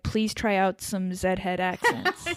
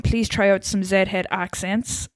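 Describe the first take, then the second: First: Slow, softer American accent; generic American accent. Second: Slow Irish accent; Derek. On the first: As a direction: read it slowly as an American. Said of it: "American would be like". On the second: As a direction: read it slowly in an Irish accent. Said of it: "Irish is like Derek, so he'd be saying". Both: Shown as a demonstration.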